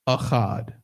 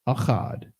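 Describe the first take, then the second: No difference in how they are said.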